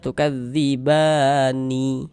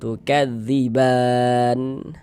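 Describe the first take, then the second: First: The word ends with an added final vowel. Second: The word ends on a silent final n. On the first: The reader carries on past this word. The speaker calls it wrong. "Jangan dibaca tukadzibani" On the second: The reader stops at this word. The speaker calls it right. "kita baca tukadziban"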